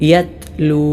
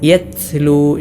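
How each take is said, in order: First: The t is released with a light burst of air. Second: The t is released with a heavy burst of air. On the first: The speaker calls it right. "ശരിയായ രൂപം" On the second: The speaker calls it wrong. "ശക്തമായ കാറ്റോടുകൂടെ ഉച്ചരിക്കാറുണ്ട്. അത് പിഴവാണ്"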